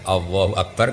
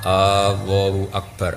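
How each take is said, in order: First: The opening vowel is short and plain. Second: The opening vowel is drawn out long. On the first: It states that God is the greatest. The speaker calls it right. "kan jelas itu kalam khobar" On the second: It asks whether God is the greatest. The speaker calls it wrong. "Jadi istifham kan? Jadi jadi apa?"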